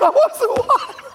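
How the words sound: It is said in a begging, pleading tone.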